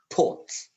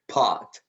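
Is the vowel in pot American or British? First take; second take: British; American. First: Pot is said with a British vowel. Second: Pot is said with an American vowel. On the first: "British would say pot" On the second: "this vowel a in American English, we say pot"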